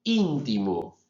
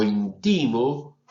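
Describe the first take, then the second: First: Íntimo stressed on the first syllable, í. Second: Intimo stressed on the middle ti, said slowly; stress on second syllable. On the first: Professor contrasting stress for students, first syllable stressed. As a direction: hit the opening í of íntimo. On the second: Professor contrasting stress for students, middle syllable stressed. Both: Shown as a demonstration. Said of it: "las diferencias entre las dos".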